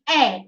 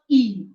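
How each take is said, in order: First: The letter is named the Italian way. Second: The letter is named the English way. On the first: The speaker calls it right. "So E is A" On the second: The speaker calls it wrong. "and not E"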